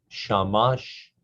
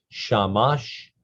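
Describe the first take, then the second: No difference in how they are said.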